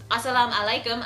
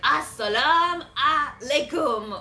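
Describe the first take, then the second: First: The greeting is said in a plain, normal way. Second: The greeting is said in an odd, comic way. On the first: This is the usual way to say it. "I think that's how you say it" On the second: Someone else said it awkwardly. "the way Joseph said it was kind of funny. It was like"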